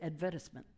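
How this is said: It is said with a British pronunciation. "they say advertisement"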